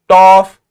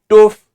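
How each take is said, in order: First: The vowel is a short 'o' sound. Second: The vowel is a long 'oo' sound. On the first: "not toff" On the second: "Not toof"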